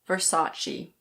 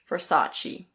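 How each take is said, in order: First: It is said in American English, sounding the R. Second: It is said in American English, sounding the R.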